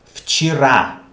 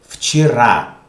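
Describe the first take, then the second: First: Вчера said as fchi-RA, Е sounding as I; Вчера with the stress landing on the final A; model pronunciation. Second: Вчера as fchi-RA, louder, stress on RA; Вчера with Е reduced to I; model pronunciation repeated. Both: Shown as a demonstration. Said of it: "Why do I pronounce Е like I".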